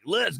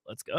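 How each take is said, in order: First: It is said with strong emphasis. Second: It is said in a chill, relaxed way.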